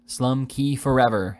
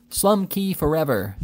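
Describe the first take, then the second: First: A milder, slow echo of the crowd's cry. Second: Roar. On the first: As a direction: repeat the chant politely, less force. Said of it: "echoed Mister Pickwick". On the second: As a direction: roar it like a whole mob. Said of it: "roared the honest and independent". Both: A narrator's reading.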